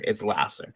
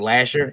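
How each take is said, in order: First: The middle consonant is an s sound. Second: The middle consonant is a sh sound. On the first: The speaker calls it right. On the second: The speaker calls it wrong. "A lot of people say Lasher"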